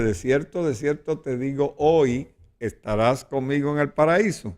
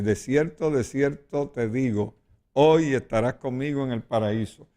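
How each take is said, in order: First: The pause comes after the word hoy. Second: The pause comes before the word hoy.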